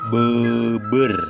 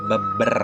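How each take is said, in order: First: The vowel is an unrounded eu sound. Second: The vowel is a short, weak schwa sound. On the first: "Yang terakhir yang ada U-nya yaitu E" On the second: "E pepet ini berarti dibacanya beber"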